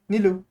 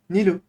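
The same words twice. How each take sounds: No difference in how they are said.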